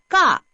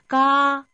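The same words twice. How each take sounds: First: The pitch falls sharply from high to low. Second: The pitch stays high and level.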